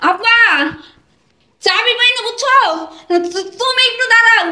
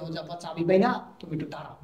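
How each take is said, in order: First: High, raised stalling call. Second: Low, very soft secret coaching; feed the excuse under your breath; hushed prompting. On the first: Daughter shouts lost-key excuse to waiting father, calling out. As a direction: call the excuse through the door. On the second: Husband tells wife what to shout to father, hushed. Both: Acted.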